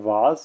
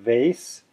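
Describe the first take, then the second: First: The word is said with a British vowel. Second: The word is said with an American vowel.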